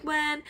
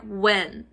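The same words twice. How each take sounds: First: Polite, higher-pitched "when"; imitated nice, gentle question; very nicely. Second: Curt, low-pitched "when"; imitated blunt demand; blunt question. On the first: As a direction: ask it softly and sweetly. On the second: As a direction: fire the question back with falling tone. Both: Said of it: "But I said this very nicely".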